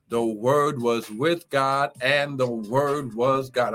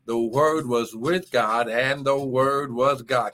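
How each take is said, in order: First: "The Word was with God" spoken slowly, each word weighed; slow, deliberate stress on "with" and "God"; slow emphatic scripture. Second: "The Word was with God" again, slow and weighty; repeated for emphasis. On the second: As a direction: stress "with", let "God" fall. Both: Shown as a demonstration. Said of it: "I'm gonna say it again".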